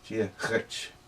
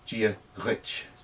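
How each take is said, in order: No difference in how they are said.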